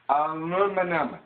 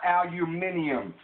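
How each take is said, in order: First: The word is said without the extra syllable. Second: The word is said with an extra syllable. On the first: The speaker calls it right. "It's called aluminum" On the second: The speaker calls it wrong. "not aluminium"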